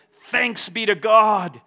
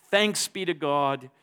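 First: Loud, slow, ringing thanks; joyful worship. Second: Said in the usual way. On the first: Acted. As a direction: burst into thanks to God. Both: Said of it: "Paul breaks into a spontaneous moment of worship".

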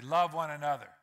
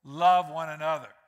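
First: Said in the usual way. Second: LOVE said loud and falling; emphatic. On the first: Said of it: "Say that with me". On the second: Shown as a demonstration. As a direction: hit "Love" hard, drop at the end. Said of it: "wants to emphasize it".

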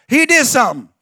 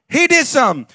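The two takes are said the same way.

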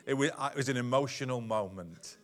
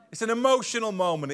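First: Said in the usual way. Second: Higher, louder self-justifying tone; mock defensive excuse. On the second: Shown as a demonstration. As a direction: make a lame excuse sound convincing. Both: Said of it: "We say that".

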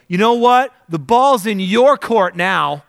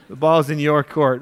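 First: Loud, higher, slow defiant throwdown; mock defiant challenge. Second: Said in the usual way. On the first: Speaker telling God off after losing a job, loud and defiant. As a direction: throw it down like a dare. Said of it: "And I go". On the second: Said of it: "That's what I said".

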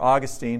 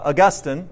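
First: Put-on Augustine said AW-gus-teen, stress up front; alternative pronunciation of Augustine. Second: Augustine said uh-GUS-tin, stress on the middle; first pronunciation of Augustine. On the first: Preacher offering the other way to say it, Augustine as AW-gus-teen. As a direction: say Augustine as AW-gus-teen, long last syllable. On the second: Preacher naming the book's author to the congregation, Augustine as uh-GUS-tin. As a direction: say Augustine as uh-GUS-tin, short last syllable. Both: Shown as a demonstration. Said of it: "however you pronounce that".

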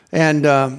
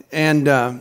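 No difference in how they are said.

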